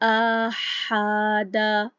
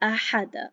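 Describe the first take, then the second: First: A vowel is stretched out longer than one beat. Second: Each vowel is kept short, one beat. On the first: The speaker calls it wrong. "गलत तरीके से पढ़ा जाए" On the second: The speaker calls it right. "ये बिल्कुल ठीक तरीका है, एक हरकत पढ़ी है"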